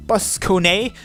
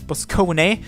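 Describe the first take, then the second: No difference in how they are said.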